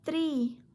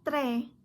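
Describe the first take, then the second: First: The vowel is a long 'ee' sound. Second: The vowel is a short, different sound. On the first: The speaker calls it right. "must be called E" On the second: The speaker calls it wrong.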